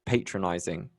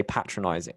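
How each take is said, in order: First: Patronizing with long "pay" first syllable; long-a pronunciation. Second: Patronizing with short "pat" first syllable; American pronunciation. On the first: Briton compares accents for co-host, patronizing said PAY-truh-nize-ing. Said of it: "'cause there's a difference". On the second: Briton quotes American usage to co-host, patronizing said PAT-ruh-nize-ing. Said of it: "In America, you say". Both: Shown as a demonstration.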